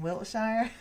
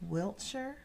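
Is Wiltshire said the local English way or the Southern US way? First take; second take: Southern US; local English. First: It is said the Southern US way. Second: It is said the local English way. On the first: "being from South Carolina, I think we can get away with saying Wiltshire" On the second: "I think it's pronounced Wiltshire"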